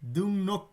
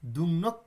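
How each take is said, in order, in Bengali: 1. দ্বিতীয় সিলেবলটি N ধ্বনি দিয়ে শুরু হয়। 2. দ্বিতীয় সিলেবলটি N ধ্বনি দিয়ে শুরু হয়।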